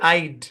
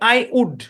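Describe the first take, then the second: First: It is merged into one short syllable. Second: It is said as two separate full words. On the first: "contraction করে কি বানাইছে" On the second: "এর উচ্চারণ কি?"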